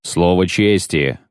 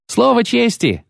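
First: Slow, measured word of honour; solemn assurance. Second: Put-on very high, boyish knight; youthful voice. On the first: Chequered knight vouching for Geralt, slow assurance. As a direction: weigh each word as a pledge. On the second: Second knight echoing the first, youthful voice. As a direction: pipe up eagerly like a young squire. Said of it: "подхватил юношеским голосом другой". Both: A narrator's reading.

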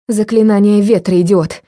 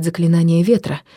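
First: Яростно прошипеть выше и громче; процеди со злостью; шипение сквозь зубы. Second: Said in the usual way. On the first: Acted. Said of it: "прошипела я". (злобно шипя)

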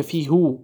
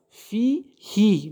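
First: هو said as "hu", the rejected reading; فی هو with a "hu" ending, marked as wrong; wrong form. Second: فی هی drawn out slowly with هی as "hi"; very slow فی هی with a clear "hi"; correct form. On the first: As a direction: say فی هو with "hu" to show the mistake. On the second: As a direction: recite فی هی slowly, ending on "hi". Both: Shown as a demonstration.

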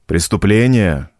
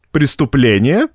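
First: "Преступление" slow, with a falling tune; firm restatement. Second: "Преступление" as a question, rising sharply at the end; questioning echo. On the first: Priest confirms to the postmaster, "Преступление" slow and falling. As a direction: state "Преступление" slowly, pitch settling down. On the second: Postmaster queries the priest's word, "Преступление?" with rising questioning tune. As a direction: ask "Преступление?" back, pitch climbing on the last syllables. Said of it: "переспросил Минаре". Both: A narrator's reading.

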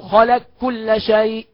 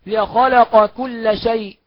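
First: "خلق كل" said slowly as khalak-kulla, no q left; qaf merged into kaf. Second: Said in the usual way. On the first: Shown as a demonstration. Teacher showing the merge, "خلق كل" as one khalak-kulla. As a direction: make the ق of "خلق" a held double k into "كل". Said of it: "يبقى ندغمه، نقول". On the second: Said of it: "ده مثال على القاف في الكاف".

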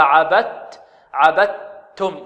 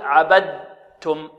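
First: Slow عبدتم with pure doubled t, no d; full assimilation. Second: Slow عبدتم with a voiced d before the t; wrong voiced dal. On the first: Teacher models correct reading, slow pure double t. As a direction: close عبدتم on a held t, "abat-tum". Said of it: "فهكذا نقرأها". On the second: Teacher shows pupils the mistake, slow voiced d. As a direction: let d sound in عبدتم, "abad-tum". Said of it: "ولا نقول عبدتم". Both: Shown as a demonstration.

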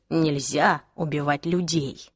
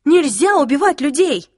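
First: Slow, low, measured echo; calm agreement. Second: Loud, high-pitched appalled cry; outraged protest. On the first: Jace echoing the girl's protest, calm and deliberate. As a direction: repeat it coolly, dropping the pitch. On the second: Clary pleading against the killing, outraged cry. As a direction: raise the voice high and insist. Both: Acted.

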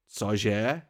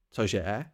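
First: Sudden startled question, rising; blurted in surprise. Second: Startled short question with a quick rise; blurted in surprise. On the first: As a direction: blurt it out, caught off guard. (vyhrknuté překvapením) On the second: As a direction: blurt it out in shock. (vyhrknuté v šoku) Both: A narrator's reading. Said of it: "vyhrkl jsem".

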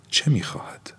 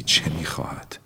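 First: High unvoiced whisper, stress on چه; whispered, rising urgency. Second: Soft unvoiced whisper, falling; whispered question. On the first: Narrator asking himself again, whispered and urgent. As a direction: lift چه in a sharp whisper. Repeated question, pitched up. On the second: Narrator whispering to himself. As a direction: breathe the question to yourself. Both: A narrator's reading.

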